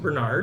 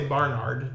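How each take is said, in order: First: The first syllable sounds like 'ber'. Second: The first syllable sounds like 'bar'. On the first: The speaker calls it right. "that is how you pronounce it" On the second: The speaker calls it wrong. "I want to say Barnard, just because the A's are in there"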